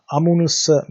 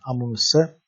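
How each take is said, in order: First: "Amunusa" said high and loud, syllable by syllable; Pali word said clearly. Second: Said in the usual way. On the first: Shown as a demonstration. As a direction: announce "Amunusa" clearly as a model.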